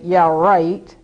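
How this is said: It is said in a sarcastic tone. The speaker does not believe it. "then you know I have a sarcastic tone"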